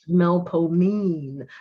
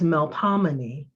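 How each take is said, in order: First: It has three syllables with a long O. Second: It has four syllables with a short O. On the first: This is the local New Orleans pronunciation. "New Orleanians pronounce it with a long O sound" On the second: This is the standard pronunciation of the muse's name. "the conventional and standardized pronunciation"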